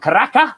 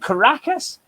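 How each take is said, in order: First: The final S is dropped, Venezuelan style. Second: The final S is pronounced.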